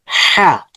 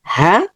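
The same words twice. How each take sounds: First: "হা" with a thick, constricted h from the throat; thicker sound. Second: Said in the usual way. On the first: Shown as a demonstration. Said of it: "একটু গাঢ় হচ্ছে". ("হা" একটু গাঢ় করে, গলার ভিতর থেকে) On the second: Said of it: "normal sound হচ্ছে".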